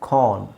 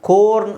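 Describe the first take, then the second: First: The vowel sounds like 'ah'. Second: The vowel sounds like 'oh'. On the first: The speaker calls it right. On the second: The speaker calls it wrong.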